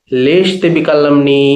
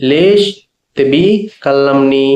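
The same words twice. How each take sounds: First: Said in the usual way. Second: "లేష్ ... తెబి ... కల్లంని", a pause after each word. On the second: Shown as a demonstration. Teacher breaking down an Arabic question for learners, word by word. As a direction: split "లేష్ తెబి కల్లంని" into separate words, lifting "లేష్".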